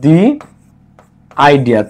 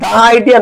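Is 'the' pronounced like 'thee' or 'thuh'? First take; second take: thee; thuh. First: 'The' is said with a long 'ee' vowel. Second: 'The' is said with a short 'uh' vowel. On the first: The speaker calls it right. "এটা উচ্চারণ হচ্ছে দি idea" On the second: The speaker calls it wrong. "দা idea নাকি দি idea"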